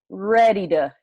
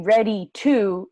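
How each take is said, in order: First: The word 'to' is reduced and linked. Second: The word 'to' is said fully and clearly. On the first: The speaker calls it right. "we say ready to" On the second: The speaker calls it wrong. "We don't say ready to"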